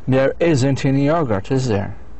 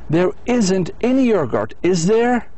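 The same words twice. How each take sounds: First: The tag sounds certain, simply expecting agreement. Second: The tag sounds like a genuine, uncertain question. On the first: The asker is sure there isn't any. "under the sure of the answer" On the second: The asker does not know the answer. "under the unsure of the answer, real question"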